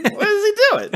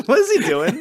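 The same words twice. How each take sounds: First: Much higher, squeaky mock disbelief. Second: Laughing through the question; amused, laughing disbelief. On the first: Repeats it in a high voice. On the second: Real, not acted. Laughing at a silly scene.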